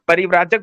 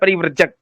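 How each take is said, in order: First: The vowel after 'vr' is long. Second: The vowel after 'vr' is short. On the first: The speaker calls it right. "इसको परिव्राजक पढ़ना नहीं आता है।" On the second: The speaker calls it wrong. "क्या पढ़ा है?"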